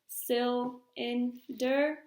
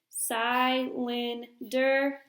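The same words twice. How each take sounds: First: The first syllable is closed with a short vowel. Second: The first syllable is open with a long vowel. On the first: The speaker calls it right. "put our line behind the L ... label that first syllable as closed" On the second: The speaker calls it wrong. "try our dividing after the first vowel ... That doesn't sound quite right"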